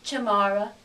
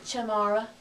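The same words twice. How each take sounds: First: The unstressed vowels are reduced to schwa. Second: The unstressed vowels are reduced to schwa.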